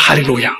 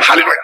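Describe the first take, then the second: First: It is said slowly. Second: It is said fast.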